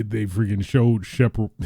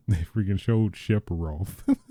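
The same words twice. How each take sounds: First: Sephiroth blurted as "Shepard"; misspoken Shepard. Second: Said in the usual way. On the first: Real, not acted. Telling viewers about the trailer, garbled name slip. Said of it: "That sounds like a southern". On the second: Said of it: "correcting the slip".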